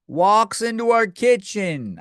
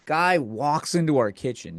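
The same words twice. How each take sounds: First: High, drawn-out disbelief; slow incredulous exclamation; incredulous repeat. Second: Said in the usual way. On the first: Real, not acted. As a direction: repeat it slowly, pitched up in outraged disbelief.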